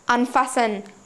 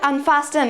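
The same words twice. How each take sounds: First: The t in the middle is silent. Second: The t in the middle is pronounced. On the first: The speaker calls it right. "T is silent over here" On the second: The speaker calls it wrong. "it is not unfasten"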